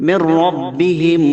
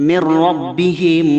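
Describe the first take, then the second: Both takes have the same delivery.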